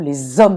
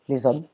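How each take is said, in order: First: The liaison sound is pressed hard and stressed. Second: The liaison sound is light and unstressed. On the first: The speaker calls it wrong. "en appuyant sur, euh, sur la liaison" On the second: The speaker calls it right. "comme ça, avec pudeur"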